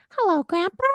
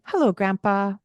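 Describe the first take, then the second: First: Hello grandpa squeaked very high; be silly and squeak it up high; playful squeaky greeting. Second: Said in the usual way. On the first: Shown as a demonstration. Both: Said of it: "get playful".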